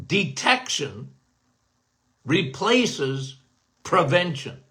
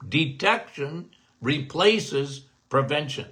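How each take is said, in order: First: "detection" … "replaces" … "prevention", a slow pause between each word. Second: "Detection replaces prevention" in one slow run, stress on "Detection"; slow slogan. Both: Shown as a demonstration.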